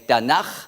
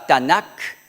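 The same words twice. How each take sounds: First: The final consonant is a soft, breathy kh. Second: The final consonant is a hard k stop. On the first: The speaker calls it right. "on l'exprime d'une manière douce" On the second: The speaker calls it wrong. "On ne dit pas Tanakh"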